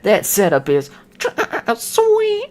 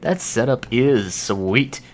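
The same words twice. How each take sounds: First: It is said in a distinct put-on narrator voice. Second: It is said in a plain, ordinary voice.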